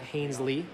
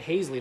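First: The name is said with an N sound. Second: The name is said without an N sound. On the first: The speaker calls it wrong. "not Hainsley" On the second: The speaker calls it right. "I should say Hainsley ... No N in that one"

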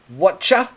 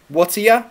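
First: The words merge into one word, whatcha. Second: The last word is reduced to ya. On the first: "we can contract to whatcha"

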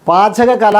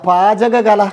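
No difference in how they are said.

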